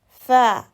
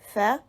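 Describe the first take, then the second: First: The vowel is drawn out and long. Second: The vowel is short and clipped. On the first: "tu dois lire lentement avec insistance" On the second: "tu dois lire cette lettre rapidement, d'un ton sec"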